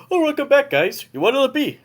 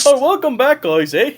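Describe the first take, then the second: First: Put-on high Canadian bartender accent, second try; Canadian accent retry. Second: Put-on high, loud Canadian barkeep accent with a bouncy eh. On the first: Bartender welcoming guys back, Canadian accent. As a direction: lift the pitch and go Canadian again. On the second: Barkeep greeting the returning party, Canadian accent. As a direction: play the Canadian moose bartender accent. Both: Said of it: "a Canadian accent".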